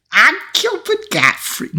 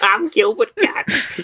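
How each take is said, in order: First: Raised-pitch, slowed, badly attempted Gilbert Gottfried voice; a hammed-up, failed celebrity squawk; Gilbert Gottfried impression. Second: Much higher, very slow mock Gilbert Gottfried; a second, mocking stab at the voice; Gilbert Gottfried impression. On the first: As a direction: squawk it high and slow, failing on purpose. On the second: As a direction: drag it out high and squawky. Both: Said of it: "I wanna hear your Gilbert Gottfried voice".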